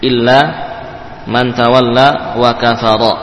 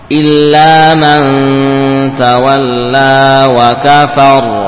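First: The last word ends with a short vowel. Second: The last word ends on a consonant. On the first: The reading continues without stopping. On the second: The reader stops at this word.

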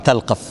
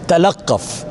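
First: The middle consonant is said short and single. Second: The middle consonant is said long and doubled. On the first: "حفص حصرا عن عاصم قرأ" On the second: "بالتشديد"

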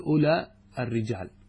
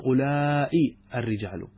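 First: The final vowel of the first word is short. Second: The final vowel of the first word is lengthened. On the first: "أولى بدون أل هذا اسم إشارة على لغة زميم" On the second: "والحجازيون يمدون"

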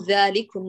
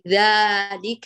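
First: The first vowel is opened to a medium degree. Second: The first vowel is opened very wide. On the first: The speaker calls it right. "أيوة" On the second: The speaker calls it wrong. "لا هذا فتح زائد"

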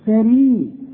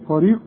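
First: The r sound is light and thin. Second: The r sound is heavy and thick. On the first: The speaker calls it right. "لا فريق على وزن حرير" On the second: The speaker calls it wrong. "مش فريق"

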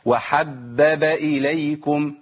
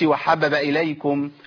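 First: All three b sounds are clearly pronounced. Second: One of the three b sounds is dropped. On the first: The speaker calls it right. "لازم انطق ايه؟ ثلاث باءات" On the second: The speaker calls it wrong. "ما اقولش ... كده اسقطت باء"

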